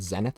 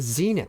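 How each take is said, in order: First: Zenith is said with a British-sounding pronunciation. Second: Zenith is said with an American-sounding pronunciation. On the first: The speaker calls it wrong. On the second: The speaker calls it right.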